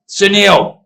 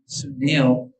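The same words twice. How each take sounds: First: The name is said in a friendly tone. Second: The name is said in a nasty tone.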